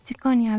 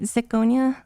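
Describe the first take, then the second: First: The name is said with a Japanese-style pronunciation. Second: The name is said with an American English pronunciation. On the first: "Is it pretensions if I do the Tsukonya" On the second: "Sounds stupid. I hate American English pronunciations"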